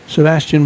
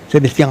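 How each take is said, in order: First: The name is said with an English pronunciation. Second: The name is said with a Spanish pronunciation. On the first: "I'm just kind of giving the English one" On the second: "a very Hispanicized pronunciation of Sebastian"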